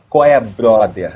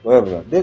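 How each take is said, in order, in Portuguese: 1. Cada som é articulado de forma limpa e cuidadosa. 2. Os sons se emendam uns nos outros, com uma dicção solta e desleixada. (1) "Não é qual é, brother" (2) "Deixa a dicção falhar pra ficar mais natural"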